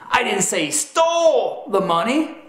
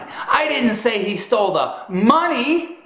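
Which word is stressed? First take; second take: stole; money. First: The word 'stole' is stressed. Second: The word 'money' is stressed. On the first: He did something with the money other than steal it. "that emphasis communicates that perhaps he did something with the money other than steal it" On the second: He stole something other than the money. "That's communicating that you proclaimed he stole something other than the money"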